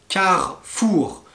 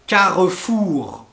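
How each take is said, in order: Both takes have the same delivery.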